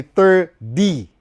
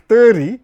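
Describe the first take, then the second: First: "thirty" slowly split as ther-DEE. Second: "thirty" with the middle t blurred to a tap, slow; t softened away. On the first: Teaching viewers American T, "thirty" with a firm D. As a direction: hit a clear D in "thirty", very slow and loud. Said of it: "Ni D, by the way". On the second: Showing viewers what they think they hear, blurred-t "thirty". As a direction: say "thirty" as it is misheard, no clear d. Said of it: "So, una think thirty". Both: Shown as a demonstration.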